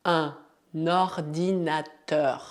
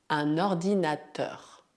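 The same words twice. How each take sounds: First: Ordinateur drawn out slowly; slow demo. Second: Said in the usual way. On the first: Shown as a demonstration. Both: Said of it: "repeat after me demo".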